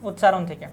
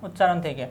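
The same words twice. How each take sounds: The two takes are said the same way.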